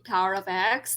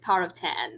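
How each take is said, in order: First: The last word is the letter name 'ex'. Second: The last word is the number 'ten'. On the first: The speaker calls it wrong. "because I keep on saying Power of X. No" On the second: The speaker calls it right. "it's Power of ten"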